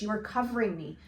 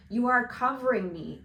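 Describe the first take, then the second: First: Said in the usual way. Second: Louder, pressing on "are"; insistent repeat. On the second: Acted. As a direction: repeat the warning with more force.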